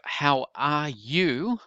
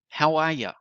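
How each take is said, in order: First: The last word is a full 'you'. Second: The last word is reduced to 'ya'. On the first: "You is the standard pronunciation" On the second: "So this is the ya sound"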